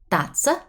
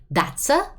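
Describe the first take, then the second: First: The words are linked smoothly into one. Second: The same.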